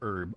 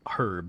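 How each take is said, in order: First: The H at the start is silent. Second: The H at the start is pronounced. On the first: "with a hard H or Herb?" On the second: "hard H"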